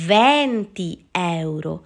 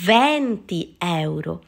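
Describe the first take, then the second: No difference in how they are said.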